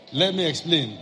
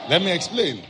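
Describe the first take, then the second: First: Said in the usual way. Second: Emphatic call. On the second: Shown as a demonstration. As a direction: call it out to the congregation.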